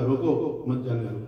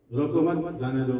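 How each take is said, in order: First: "रोको", short break, then "मत जाने दो" run together; pause after रोको. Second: "रोको मत" as one unit, pause, then "जाने दो"; pause after मत. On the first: Teacher voicing the gatekeeper's reading, pausing after रोको, before मत जाने दो. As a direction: break after रोको, so it means don't let them go. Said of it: "ये क्या, वक्त और वसल". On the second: Teacher quoting the written note, pausing after मत, before जाने दो. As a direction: break after मत, so it means don't stop them. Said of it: "कि कहाँ रुकना है, कहाँ नहीं रुकना है". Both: Shown as a demonstration.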